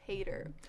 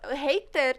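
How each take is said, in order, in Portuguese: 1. A palavra é dita sem pronúncia britânica. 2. A palavra é dita com pronúncia britânica. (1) "Mas eu costumo falar hater" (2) "Hater tem uma pronúncia mais britânica"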